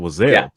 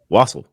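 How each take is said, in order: First: The middle consonant is a buzzing z sound. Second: The middle consonant is a hissing s sound. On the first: The speaker calls it wrong. "before I asked him that, I always thought it was" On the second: The speaker calls it right. "it rhymes with waffle, but it's, it has an S in it"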